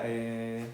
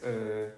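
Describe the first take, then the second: First: "eh" with a plain Spanish E, drawn out; Spanish hesitation sound. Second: "eh" drawn out as a rounded French "euh"; French hesitation sound. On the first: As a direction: think aloud on a soft, low "eh". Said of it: "En español sería". ("eh" de duda a la española, con E clara) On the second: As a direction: think aloud in French on a soft "eh", lips rounded. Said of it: "en francés es". ("eh" de duda a la francesa, como "euh") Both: Shown as a demonstration.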